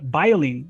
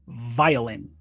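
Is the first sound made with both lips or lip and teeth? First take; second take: both lips; lip and teeth. First: It starts with a B sound using both lips. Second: It starts with a buzzing V using lip and teeth. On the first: The speaker calls it wrong. "it's not violin, but but no, it is not bilabial" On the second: The speaker calls it right. "it's labiodental. So we say violin"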